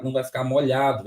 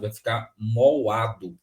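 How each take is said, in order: First: Said in the usual way. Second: Moado said slowly, the lh dropped to a bare vowel gap; mock wrong word moado; wrong split. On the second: Shown as a demonstration. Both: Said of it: "se eu separar aqui o L do H".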